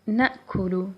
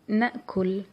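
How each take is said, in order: First: The word ends with a short u vowel. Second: The word ends on the final consonant. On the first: "we add noon at the beginning and dhamma at the lam" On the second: "you can pronounce it with sukoon at the lam"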